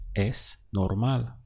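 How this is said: It has the intonation of a statement. It is normal. "How would you say it's normal?"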